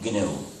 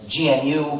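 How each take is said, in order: First: It is one word with a hard g before noo. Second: It is spelled out as three separate letters. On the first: The speaker calls it right. "it will always be G N U" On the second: The speaker calls it wrong. "Don't say it as G N U, because that's too much work"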